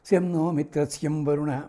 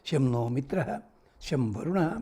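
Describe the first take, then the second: First: The 'sham' sounds are pressed out with heavy force. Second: The 'sham' sounds are said lightly without extra force. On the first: The speaker calls it wrong. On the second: The speaker calls it right.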